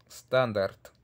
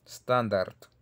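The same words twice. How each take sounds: The two takes are said the same way.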